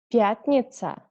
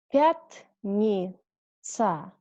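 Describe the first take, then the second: First: The word is said fast. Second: The word is said slowly. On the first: Said as a native speaker normally would. "second time I read faster, like a normal native speaker" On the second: Said carefully, as a teacher would. "First time I read slowly"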